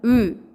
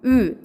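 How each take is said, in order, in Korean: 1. 이 모음은 입술을 둥글게 한 채 내는 하나의 단모음이에요. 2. 이 모음은 입술을 둥글게 한 채 내는 하나의 단모음이에요.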